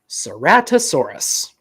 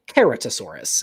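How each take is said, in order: First: It is said with everyday English sounds. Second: It is said with classical Latin sounds.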